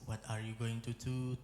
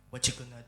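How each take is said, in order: First: Every word is said fully and separately. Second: The words are reduced and run together. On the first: This is how it is written. "contohnya kayak teks" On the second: This is how it is actually heard. "Tapi kuping kita dengar"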